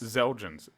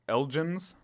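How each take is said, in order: First: The word begins with a "z" sound. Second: The word begins with no X sound. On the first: "They're pronouncing it like a Z" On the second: "Without it is"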